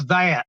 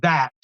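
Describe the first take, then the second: First: "that" drawn into two syllables, like "thay-at"; "that" with a broken, drawled vowel; Buddy's way of THAT. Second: "that" said cleanly as one syllable; plain, precise "that"; too-perfect THAT. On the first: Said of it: "You're nearly there, buddy". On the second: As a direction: say "that" neatly and correctly. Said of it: "If you hadn't said that so perfectly". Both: Shown as a demonstration.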